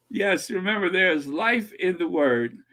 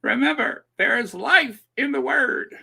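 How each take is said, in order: First: Light preacher impression; a hint of mock televangelist; Joyce Myers. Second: High, emphatic preacher impression; mock televangelist pitched well up; Joyce Myers. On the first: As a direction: echo the preacher's catchphrase, milder. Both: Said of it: "I used to do a mean Joyce Myers impersonation".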